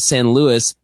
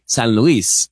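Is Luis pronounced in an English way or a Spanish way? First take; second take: English; Spanish. First: Luis is pronounced in a common anglicized way. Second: Luis is pronounced in the original Spanish way. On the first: This is how most people say it. The speaker calls it wrong. "everyone says San Luis" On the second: This is the correct pronunciation. The speaker calls it right. "it's actually San Luis"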